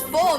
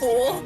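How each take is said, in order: First: The word has a short vowel, like 'full'. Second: The word has a long vowel, like 'fool'. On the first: The speaker calls it right. "It's full" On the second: The speaker calls it wrong. "not fool"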